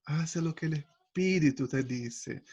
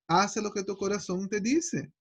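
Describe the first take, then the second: First: Espíritu leaned on, slow and soft; stress on Espíritu. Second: Said in the usual way. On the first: Shown as a demonstration. Preacher corrects the saying for the church, slow, stress on Espíritu.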